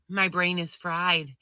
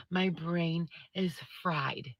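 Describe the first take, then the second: First: Said in the usual way. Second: Slower, softer, drained repeat; exhausted mutter. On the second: Real, not acted. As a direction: let it sink out, spent.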